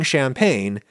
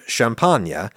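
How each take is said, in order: First: It is said with an English pronunciation. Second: It is said with a French pronunciation. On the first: "me saying champagne" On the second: "instead of champagne"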